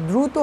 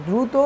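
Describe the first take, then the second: Both takes have the same delivery.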